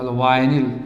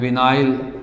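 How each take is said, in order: First: The first syllable has the long 'eye' vowel. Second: The second syllable has the long 'eye' vowel. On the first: "या इसी कभी कहा वाइनिल" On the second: "इसी को बोलते हैं विनाइल group"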